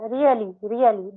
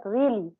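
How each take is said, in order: First: "really" drawn into three syllables, ree-uh-lee; mispronounced really. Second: "really" in two syllables, REE-lee; correct really. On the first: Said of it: "that is not a really". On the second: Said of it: "that's a really". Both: Shown as a demonstration.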